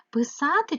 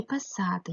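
First: "Писати" with "и" in the first syllable; clear Y vowel. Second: "писати" with the first vowel said as "е"; Y turned to E. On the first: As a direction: sound out "Писати" as py-sa-ty. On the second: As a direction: sound out "писати" as pe-sa-ty. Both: Shown as a demonstration. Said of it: "як правильно".

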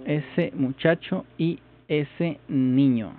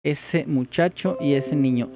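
First: Drawn out word by word to practise it; slow down and say each word deliberately; learner's slowed practice phrase; slow careful repeat. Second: Said in the usual way. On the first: Shown as a demonstration.

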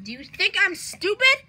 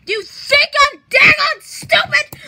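First: Said in the usual way. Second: High, very loud outraged yell; hammed-up screaming rage; furious shout. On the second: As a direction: blow up, shouting the question. Repeats question, blowing up in anger.

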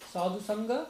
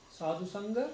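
Both takes have the same delivery.

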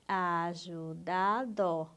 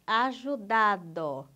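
First: "ajudado" very slow, each syllable held apart. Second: Said in the usual way. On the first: Shown as a demonstration. Teacher confirming the syllable count, syllable by syllable. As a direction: stretch "ajudado" out syllable after syllable. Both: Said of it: "separe as sílabas".

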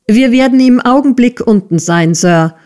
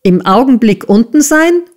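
First: Higher-pitched call down to the boss; earnest, lifted reply to a superior; prompt reply. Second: High, jeering question; sneering repeat, rising at the end; mocking echo. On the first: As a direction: answer promptly and dutifully, voice raised a little. Pupil-teacher answers the bellowing master. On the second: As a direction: throw the words back with scorn. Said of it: "höhnte Squeers". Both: A narrator's reading.

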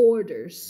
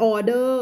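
First: "orders" with the R sounded inside "or"; English R in ORDERS. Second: "order" said the Thai way, without the English R; Thai-style ORDER. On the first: Teacher correcting the Thai version for learners, English R in "orders". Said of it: "มีเสียง or อยู่ข้างใน". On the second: Teacher showing Thai learners their own version, Thai-style "order". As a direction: Thai loanword "order", R left silent. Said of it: "ภาษาไทยจะใช้ order ใช่ไหม". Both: Shown as a demonstration.

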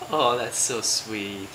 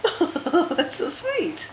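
First: Low, slow, soft aww; sympathetic aww. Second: High, slow sing-song coo. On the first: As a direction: melt into a tender, drawn-out aww. Mother melting at baby's love. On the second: Mother cooing at baby. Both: Real, not acted.

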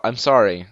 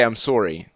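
First: Said in the usual way. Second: "sorry" with a rounded Canadian "sore-ee" vowel. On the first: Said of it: "when I say I'm so". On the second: Shown as a demonstration. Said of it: "That's what they say".

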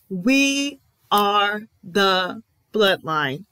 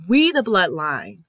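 First: "We are the bloodline" said slowly, every word weighted; slow emphatic declaration. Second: Said in the usual way. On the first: Real, not acted. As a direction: lay down "We are the bloodline" slowly, like a final verdict. Emphatic restatement of the claim.

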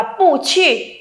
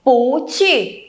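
First: "pu chỉ" with both syllables falling; slow "pu chỉ", two falling tones; unchanged wrong tone. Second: "Pú chỉ": rising pú, falling chỉ; changed tone of pu. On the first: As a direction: drop "pu" and drop "chỉ". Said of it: "thì mình sẽ không đọc là pu chỉ". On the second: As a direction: lift "Pú", then drop "chỉ". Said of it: "mà mình đọc là gì". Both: Shown as a demonstration.

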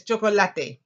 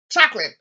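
First: "chocolate" said the Spanish way, cho-ko-LA-te, loud; four clear syllables in "chocolate", stress on LA; Spanish pronunciation. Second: "Chocolate" said the English way, CHOK-lit, loud; two quick syllables in "Chocolate", stress on the first; English pronunciation. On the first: Teacher modelling the Spanish word for class, Spanish pronunciation. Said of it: "Choco say chocolate". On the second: Teacher giving class the known English word, English pronunciation. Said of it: "you know this, chocolate". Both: Shown as a demonstration.

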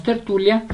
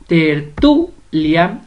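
First: Said in the usual way. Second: "tertulia" drawn out syllable by syllable, stress on "tu"; split into syllables. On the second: Shown as a demonstration. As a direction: slowly break up "tertulia": ter-TU-lia. ("tertulia" separada lentamente en sílabas, con fuerza en "tu") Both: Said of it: "Separemos tertulia".

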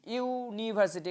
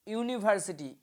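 First: ইউনিভার্সিটি slowed, with a long opening "yuu"; ইউনিভার্সিটি said slowly to show its opening y-sound; drawn-out first sound. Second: Said in the usual way. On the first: Shown as a demonstration. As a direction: stretch the "you" that starts ইউনিভার্সিটি. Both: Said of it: "যেগুলো ভাওয়েলের উচ্চারণ কিন্তু কনসোনেন্টের মতো".

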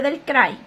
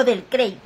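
First: "Cray" pronounced like English "cry"; Cray rhyming with eye. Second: "Cray" rhyming with English "day"; Cray as "krei". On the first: Vlogger offers one way to say a name, "Cray" as "krai". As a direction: say "Cray" with an open "ai" glide. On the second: Vlogger offers the other way to say a name, "Cray" as "krei". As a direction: say "Cray" with an "ei" glide. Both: Shown as a demonstration. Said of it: "como usted quiera decirle".

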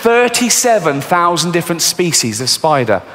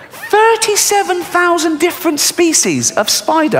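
First: Said in the usual way. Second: High, slow, disbelieving; incredulous repeat. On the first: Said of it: "repeated pitched up". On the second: Shown as a demonstration. Comedian repeating the spider count to the audience, high and incredulous. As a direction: stretch it out pitched up in mock horror. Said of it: "repeated for effect".

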